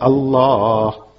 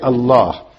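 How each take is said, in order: First: The name is said with deep, loving feeling. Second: The name is said plainly, without special feeling. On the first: The name is said by one who has come to know God. "Now with that love" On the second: The name is said with respect but without deep knowing. "One is you just say Allah"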